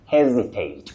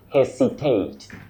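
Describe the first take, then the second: First: The middle consonant is a voiced z sound. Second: The middle consonant is a voiceless s sound. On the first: The speaker calls it right. "the S in that word takes what we call the voiced sound Z" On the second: The speaker calls it wrong. "many people say hesitate, to hesitate. That is wrong"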